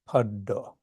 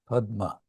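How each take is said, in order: First: The word has a doubled 'd' and no 'm'. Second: The word has an 'm' before the last vowel. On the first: "it becomes in Bengali paddo" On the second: "pado is from padma"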